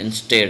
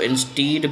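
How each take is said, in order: First: The second syllable has a short 'e' vowel. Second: The second syllable has a long 'ee' vowel. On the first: The speaker calls it right. "लेकिन ये इंस्टेड है" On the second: The speaker calls it wrong. "अक्सर इसको इंस्टीड भी पढ़ा जाता है"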